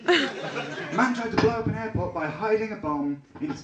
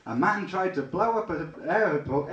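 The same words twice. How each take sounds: First: Said in the usual way. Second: "a man tried to blow up an airport" tripped over and slurred; fumbled line. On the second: Real, not acted. Comic telling the audience about the airport, fumbling the line. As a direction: stumble through "airport". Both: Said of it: "if only I could talk properly".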